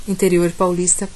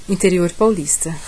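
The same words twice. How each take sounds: Both takes have the same delivery.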